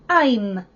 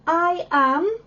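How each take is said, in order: First: It is said as one contracted syllable. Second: It is said as two separate syllables. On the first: "one word" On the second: "instead of saying I am"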